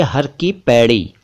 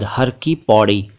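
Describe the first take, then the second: First: पैड़ी said with ai; slow careful पैड़ी with ai vowel; correct pairi. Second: पौड़ी said with au; slow पौड़ी with au vowel; wrong pauri. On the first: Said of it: "होना चाहिए". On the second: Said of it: "ये ठीक नहीं है". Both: Shown as a demonstration.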